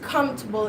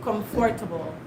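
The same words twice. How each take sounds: First: The middle 'for' syllable is dropped. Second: The middle 'for' syllable is pronounced. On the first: This is how people here say it. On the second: This is how it was read in school.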